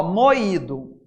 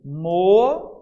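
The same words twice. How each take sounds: First: Said in the usual way. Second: "mo-i-do" split into three separate syllables mo, i, do. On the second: Shown as a demonstration. Teacher breaking the word down for students, syllable by syllable. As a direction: sound out "mo-i-do" slowly, one syllable at a time. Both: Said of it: "mo-i-do".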